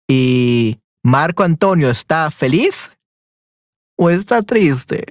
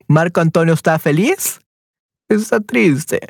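First: Slowed-down teacher question, every word spaced out. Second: Said in the usual way. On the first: Shown as a demonstration. Teacher asking Esther about Marco Antonio, slowly and clearly. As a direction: stretch it out so the learner catches each word. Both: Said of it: "repeats question for student".

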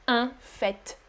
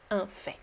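First: Softer, FAIT ending on a T; FAIT with sounded T. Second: Low, soft FAIT as "fay"; FAIT with silent T. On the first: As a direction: say FAIT as "fett". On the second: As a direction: drop the T of FAIT. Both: Shown as a demonstration. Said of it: "both are correct".

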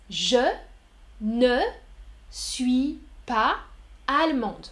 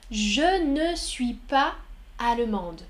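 First: Je, ne, suis pas spaced apart; word by word. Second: Slowed model sentence. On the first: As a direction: pause between the words so ne and pas stand out. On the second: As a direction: drag it out so learners hear each word. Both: Shown as a demonstration.

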